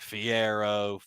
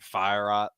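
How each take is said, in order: First: The name begins with a 'fee' sound. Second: The name begins with a 'fire' sound. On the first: Other people say it this way. "I've heard people be like Fiero" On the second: It sounds cool. "I like saying Fire just because it sounds cool. It's probably wrong"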